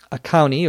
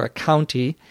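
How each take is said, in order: First: County said as "couny", no T; dropped T. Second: County with a clear T after the N; careful T. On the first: Teacher contrasting two ways for listeners, dropped T in county. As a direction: skip the T in county. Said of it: "If we were saying that quickly". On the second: Teacher contrasting two ways for listeners, careful T in county. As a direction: sound out the T in county. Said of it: "slow and carefully pronounced speech". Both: Shown as a demonstration.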